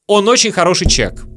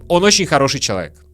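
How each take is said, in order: First: The last word is shortened to one syllable. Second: The last word is said in full.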